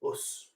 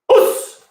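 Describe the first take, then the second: First: It is said weakly and timidly. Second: It is said strongly and confidently. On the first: The person is unsure and a bit scared. The speaker calls it wrong. "us means I'm not very confident and I'm a bit scared" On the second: The person is ready for the attack. The speaker calls it right. "you say that with strong vigor and application"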